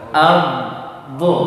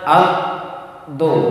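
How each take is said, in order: First: The consonant sound flows on without stopping. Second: The consonant sound stops abruptly and is cut off. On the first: The speaker calls it right. "Dia mengalir am di lidah" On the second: The speaker calls it wrong. "Jangan baca ab"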